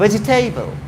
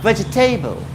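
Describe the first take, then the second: The two takes are said the same way.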